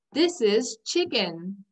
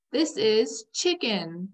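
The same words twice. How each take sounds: The two takes are said the same way.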